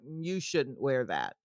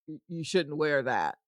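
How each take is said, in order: First: The stress is on "you". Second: The stress is on "that".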